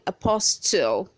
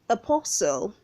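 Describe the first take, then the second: First: The T sound is pronounced. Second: The T sound is silent. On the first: The speaker calls it wrong. "Don't say apostle" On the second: The speaker calls it right. "the T is silent"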